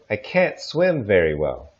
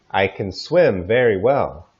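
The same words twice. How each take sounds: First: I can't swim very well with can't clearly stressed and full vowel. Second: I can swim very well with can weak and stress on swim; unstressed can. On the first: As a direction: lean on can't. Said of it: "we do stress them". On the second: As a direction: reduce can, punch swim. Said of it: "we don't usually stress them". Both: Shown as a demonstration.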